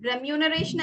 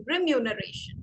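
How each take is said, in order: First: "Remuneration" with an open "reh" start; wrong pronunciation. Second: "remuneration" starting with "ri"; correct pronunciation. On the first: Teacher repeating the mistake for students, mispronounced. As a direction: say "Remuneration" beginning reh-MYOO. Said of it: "Remuneration അല്ല". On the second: Teacher modelling the word for students, correctly pronounced. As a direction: say "remuneration" as ri-myoo-nuh-RAY-shun. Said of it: "it is". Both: Shown as a demonstration.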